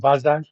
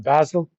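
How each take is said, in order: First: The name is said the German way. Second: The name is said the English way.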